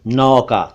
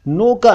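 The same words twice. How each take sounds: First: नौका with open "au"; "aw" vowel in नौका; correct नौका. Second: नौका with rounded "o"; "oh" vowel in नौका; mispronounced नौका. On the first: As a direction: say नौका as "nauka". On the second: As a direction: say नौका wrongly as "noka". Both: Shown as a demonstration. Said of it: "नौका नहीं".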